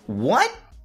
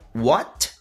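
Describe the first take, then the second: First: The final T is held without releasing air. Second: The final T is clearly released with air. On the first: The speaker calls it right. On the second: The speaker calls it wrong.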